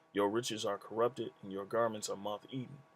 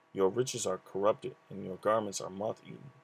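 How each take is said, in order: No difference in how they are said.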